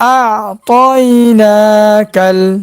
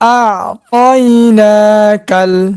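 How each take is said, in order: No difference in how they are said.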